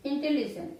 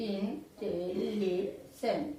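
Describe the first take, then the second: First: Said in the usual way. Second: ইন্টেলিজেন্ট very slowly, ইন-টে-লি-জেন্ট; syllable by syllable. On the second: Shown as a demonstration. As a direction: draw out and separate each syllable of ইন্টেলিজেন্ট. (ইন্টেলিজেন্ট টেনে টেনে ভেঙে, ইন-টে-লি-জেন্ট) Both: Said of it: "একেবারে আমরা যতটা উচ্চারণ করতে পারবো".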